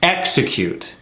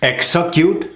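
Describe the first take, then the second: First: EXECUTE falling from a strong first syllable; correct stress on execute. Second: EXECUTE higher, rising, weight off the first syllable; mis-stressed execute. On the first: Coach modelling the right rhythm, stressed EX-ecute. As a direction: punch EX, let the rest of EXECUTE drop. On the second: Coach showing an often-heard mistake, mis-stressed EXECUTE. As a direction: push EXECUTE upward toward its later syllables. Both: Shown as a demonstration. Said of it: "another big one that I hear".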